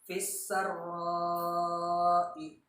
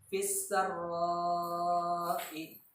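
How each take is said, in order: No difference in how they are said.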